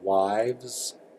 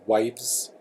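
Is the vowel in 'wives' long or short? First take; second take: long; short. First: The vowel is drawn out and long. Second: The vowel is clipped and short. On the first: The speaker calls it right. "long I" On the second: The speaker calls it wrong. "it wouldn't be wives"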